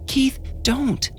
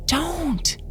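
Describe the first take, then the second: First: Put-on high, soft pleading child voice; begging whisper. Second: Put-on high, soft frightened child plea; pleading child. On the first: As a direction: beg him in a hushed voice. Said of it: "Jonah begged, still whispering". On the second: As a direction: beg in a hushed child voice. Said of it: "still whispering". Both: A narrator's reading.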